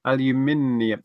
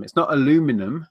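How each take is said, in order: First: Aluminium said al-yoo-MIN-ee-um, five syllables; British pronunciation. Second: Aluminum said a-LOO-mi-num, four syllables; American pronunciation. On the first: Shown as a demonstration. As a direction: stress MIN in Aluminium, keep the i. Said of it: "'Cause it's actually aluminium". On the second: Retold or imitated. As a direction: drop the i, stress LOO in aluminum. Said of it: "they take out an I".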